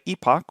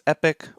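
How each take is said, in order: First: The word is said in a British accent. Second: The word is said in an American accent. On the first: "the British way, which is the way I pronounce it" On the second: "the American way"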